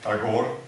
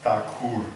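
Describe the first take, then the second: First: The name is said in its anglicized English form. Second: The name is said in its original Bengali form. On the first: "Many uh, of us pronounce it Tagore, which is quite good" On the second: "it has to be pronounced Thakur in Bengali"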